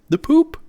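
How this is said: It is said in an imitated French accent.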